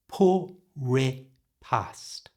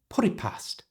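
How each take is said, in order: First: The phrase is spoken slowly. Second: The phrase is spoken fast. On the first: "I'll do it slowly so you can hear it" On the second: "And now full speed"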